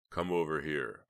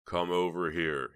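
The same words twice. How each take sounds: First: Said in the usual way. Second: Slow, louder insistence; insistent. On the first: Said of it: "Snowman said". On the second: A narrator's reading. Snowman tells Heather to sit by him, insistent. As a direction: press her slowly to obey. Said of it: "he insisted".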